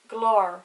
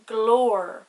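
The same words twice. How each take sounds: First: The o vowel is short and soft. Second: The o vowel is long and emphasized.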